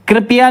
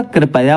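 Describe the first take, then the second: First: कृपया said "kripiya", i after p; wrong "pi" middle in कृपया; mispronunciation. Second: Said in the usual way. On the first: Shown as a demonstration. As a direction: say कृपया high, as kri-pi-ya. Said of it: "कृपया नहीं होता". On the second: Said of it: "कृपया होता है".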